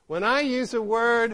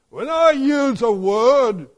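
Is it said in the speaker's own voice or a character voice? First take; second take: own voice; character voice. First: It is said in the speaker's own plain voice. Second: It is said in a scornful Humpty Dumpty voice.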